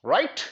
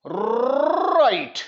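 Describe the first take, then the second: First: Said in the usual way. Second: "right" high and very slow, long rolled R; drawn-out "right". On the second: Real, not acted. Teacher checking the class follows, "right" drawn out high. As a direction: stretch "right" on a long trill, pitch climbing high.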